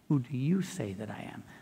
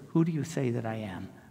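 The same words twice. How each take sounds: First: The word 'you' carries strong stress. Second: The word 'you' carries no special stress. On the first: The speaker calls it right. "The right way to say it is" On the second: The speaker calls it wrong. "that's not the right way to say it"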